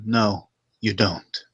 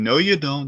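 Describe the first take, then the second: First: It is said flatly, in a creepy, intimidating way. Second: It is said in an exaggerated, hammy way.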